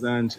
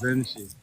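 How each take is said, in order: First: The word ends on a consonant, no final vowel. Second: The word ends with an added 'ee' vowel. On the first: The speaker calls it wrong. "It's not pronounced Zanch" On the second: The speaker calls it right. "It's Zenchi"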